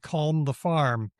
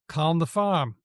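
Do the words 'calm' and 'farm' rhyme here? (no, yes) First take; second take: no; yes. First: Said with audible R and L, so no rhyme. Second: Said without R or L, so the words rhyme. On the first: "I would try to make it rhyme and I couldn't" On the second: "for them, it rhymed. ... The R was R-less and the L was not really there either"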